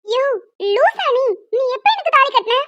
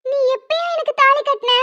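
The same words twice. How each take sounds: First: High angry yell stressing எனக்கு; shouting. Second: High, incredulous question on தாலி; can't believe what she hears; stunned question. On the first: Woman shouting at the man who claims to be her husband. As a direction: yell it at him in outrage. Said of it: "கத்தாதம்மா". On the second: Young woman asking the man when he ever tied a thali, stunned. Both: Acted.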